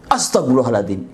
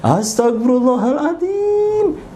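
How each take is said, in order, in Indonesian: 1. Diucapkan dengan nada tiba-tiba dan kaget. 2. Dipanjangkan dengan suara melengking. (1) "Dia kaget sehingga istighfarnya seperti itu" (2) "istighfarnya panjang, melengking"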